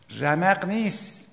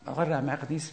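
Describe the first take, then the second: First: Slow, dragged-out sleepy groan of an excuse; mock sleepy believer refusing to rise; drowsy excuse. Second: Said in the usual way. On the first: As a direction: drawl it like someone too tired to get up.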